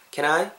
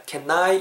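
First: "can I" run together lightly, "kenai"; natural linked pronunciation. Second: "Can I" with a heavy doubled n, "ken-nai"; over-separated pronunciation. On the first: Teacher corrects for learners, "can I" linked smoothly as "kenai". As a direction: link "can I" with one simple n. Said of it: "이렇게 하지 마시고 그냥 can I". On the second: Teacher shows learners what to avoid, "Can I" laboured as "ken-nai". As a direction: overdo the n in "Can I". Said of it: "이렇게 하지 마시고 그냥". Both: Shown as a demonstration.

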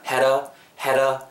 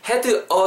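First: "had a" joined as "hera"; linked had a. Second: "had a" as two words with a full D; "had a" carefully split, "he-deu eo"; separate had a. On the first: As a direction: flap the D so "had a" becomes one word. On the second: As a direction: say "had", then "a", without linking. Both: Shown as a demonstration. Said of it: "had a가 또 붙습니다".

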